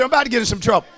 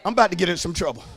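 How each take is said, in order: First: "I'm about to get in some trouble" said again, louder; repeated louder. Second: Said in the usual way. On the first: Real, not acted. Preacher repeating his warning to the congregation, louder. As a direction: say it again for the whole church to hear. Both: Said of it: "I said".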